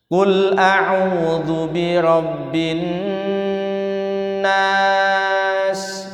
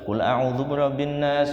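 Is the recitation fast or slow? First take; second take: slow; fast. First: It is recited at a slow tempo. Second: It is recited at a fast tempo. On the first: This is how it is recited for learning. "makom pembelajaran niku saene lambat" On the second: This is how memorizers recite. "Bacanya temponya cepat"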